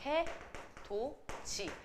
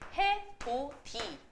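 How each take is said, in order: First: The last syllable is pronounced as ji. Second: The last syllable is pronounced as di. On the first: The consonant has changed through palatalization. "얘는 국외음화가 됩니다" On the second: The final consonant simply carries over to the next syllable. "바로 연음이 돼야겠지"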